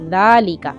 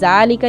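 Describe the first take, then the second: First: The word starts with a soft th-like sound. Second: The word starts with a hard z sound. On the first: The speaker calls it right. "बल्कि नरमी के साथ दालिका" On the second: The speaker calls it wrong. "ज़ालिका नहीं पढ़ेंगे। ... सख्ती वाला जा नहीं पढ़ना"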